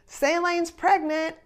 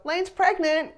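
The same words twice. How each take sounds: First: Slow, higher, teasing announcement slipped into the photo cue; sly reveal. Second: Much higher and louder, astonished repeat; stunned echo. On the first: Son-in-law sneaking the news into the photo count, slow sly announcement. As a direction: drop it casually like a joke, slowly. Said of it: "And then he says". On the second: Parents echoing the surprise news, high astonished blurt. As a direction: blurt it back in shock. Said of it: "her dad and I both go". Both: Retold or imitated.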